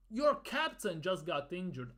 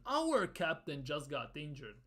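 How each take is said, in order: First: "Your" leaned on to point at the other side; stress on Your. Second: "Our" punched, the rest falling away lower; stress on Our. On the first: Fan rebuking the Norway boss, stressing "Your". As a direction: put the weight on "Your captain". Sets your captain against our captain. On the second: Fan reminding the Norway boss, stressing "Our". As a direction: hit "Our" to claim the captain. Corrects your captain to our captain. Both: Real, not acted.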